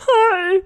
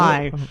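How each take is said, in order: First: She says it in a put-on voice. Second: She says it in her natural voice.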